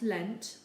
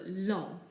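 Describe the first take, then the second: First: The word ends with a sounded final consonant. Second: The word ends without a sounded final consonant. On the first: The speaker calls it wrong. "not lent" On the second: The speaker calls it right. "but long"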